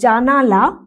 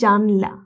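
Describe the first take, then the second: First: A vowel is sounded between n and l. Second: No vowel is sounded between n and l. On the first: This is the older full form. "জানালা থেকে আসছে জানলা" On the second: This is the shortened form after a sound is lost. "নয়ের সাথে যে আ এটা লোপ পেয়ে যাচ্ছে"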